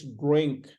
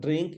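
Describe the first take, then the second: First: Drink with a rounded dr, like jrink; "drink" with a heavy rounded r; full-mouth drink. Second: Drink with a thin 'ee' sound; "drink" without the full-mouth r; mispronounced drink. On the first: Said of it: "Full mouth". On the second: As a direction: say drink wrongly, lightly at the front. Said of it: "this is not drink". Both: Shown as a demonstration.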